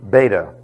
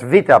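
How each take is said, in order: First: It begins with a B sound. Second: It begins with a V sound. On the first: The speaker calls it wrong. "not beta" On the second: The speaker calls it right. "the second letter of the Greek alphabet is V. And it's vita"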